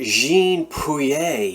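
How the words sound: It is said with a put-on French accent. The speaker calls it right. "I'm throwing on my fake French accent"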